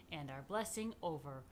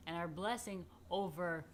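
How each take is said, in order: Both takes have the same delivery.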